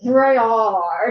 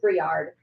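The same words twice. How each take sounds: First: The name is pronounced in a drawn-out, exaggerated way. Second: The name is pronounced plainly, without exaggeration. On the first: "we've also really really exaggerated it to be like Briard" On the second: "in my head it's Briard"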